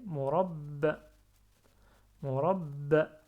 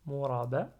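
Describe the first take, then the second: First: "murabba" fort, b longuement retenu; b redoublé. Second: "murabba" avec un b simple, finale qui monte. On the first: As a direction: bloquer le b de "murabba" puis lâcher une finale brève. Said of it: "Après". (« murabba » avec shadda sur le b) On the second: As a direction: dire "murabba" sans redoubler le b. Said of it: "Avant, ça donnait". (« murabba » sans shadda, b léger) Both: Shown as a demonstration.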